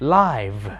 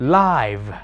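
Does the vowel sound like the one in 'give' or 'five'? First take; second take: five; five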